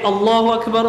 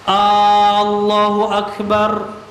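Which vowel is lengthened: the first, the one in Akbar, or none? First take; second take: none; first. First: No vowel is drawn out; all are short. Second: The opening vowel of Allahu is drawn out long. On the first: God is the greatest. The speaker calls it right. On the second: It asks whether God is the greatest. The speaker calls it wrong. "A-nya dipanjangkan"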